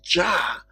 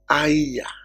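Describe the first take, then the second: First: The name begins with a J sound. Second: The name begins with a Y sound. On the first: This is the modern reading of the letter. "most people pronounce it as Jah" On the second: This is the original reading of the letter. "the letter J used to represent the sound A I Y"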